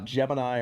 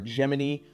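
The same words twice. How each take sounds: First: Gemini is said the common, everyday way. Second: Gemini is said the way NASA says it.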